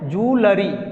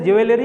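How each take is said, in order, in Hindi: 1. यह 'joo' की आवाज़ से शुरू होता है। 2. यह 'jwel' की आवाज़ से शुरू होता है। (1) "क्या बोलना है आज से, जूलरी" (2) "ज्वेलरी जो बोलते हैं शुरू से ज्वेलरी, वो गलत है"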